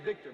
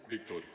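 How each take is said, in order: First: The name is said in an ordinary voice. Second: The name is said in a deep, rich voice.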